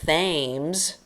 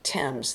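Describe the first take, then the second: First: The word begins with a 'th' sound. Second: The word begins with a 't' sound. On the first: The speaker calls it wrong. "it looks like Thames with a th sound" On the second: The speaker calls it right. "like the name of a boy, Tim, with a Z"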